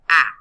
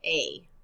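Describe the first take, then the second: First: It is said as the short vowel sound. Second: It is said as the letter's name. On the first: "Short vowel sounds say the sound of the letter" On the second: "Long vowel sounds say the letter name"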